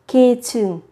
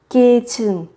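Both takes have the same delivery.

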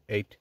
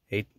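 Both takes have the same delivery.

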